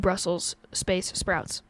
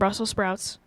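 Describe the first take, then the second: First: Brussels ends with a clear s sound. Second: Brussels is said without the final s. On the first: The speaker calls it right. "oh yeah, it would be" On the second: The speaker calls it wrong. "I've just walked around the whole the whole time saying"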